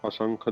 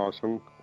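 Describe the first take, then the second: No difference in how they are said.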